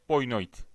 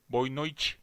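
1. Avrupa Portekizcesi aksanıyla söylenmiş. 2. Brezilya Portekizcesi aksanıyla söylenmiş. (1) "Avrupa'dakiler de boa noite olarak telaffuz etmektedirler" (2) "Biri boa noite Brezilya'dakiler"

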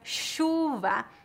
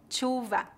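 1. Começa com um som de sh suave. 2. Começa com um som de ch forte.

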